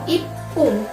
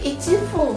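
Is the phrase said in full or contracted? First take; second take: contracted; full. First: It is contracted into one short word. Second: It is said as two full separate words. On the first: This is the actual exceptional form. The speaker calls it right. "maka satu menit itu adalah ipung ya" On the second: This is the form the regular rule would give. The speaker calls it wrong. "Fung berarti ichi fung kan"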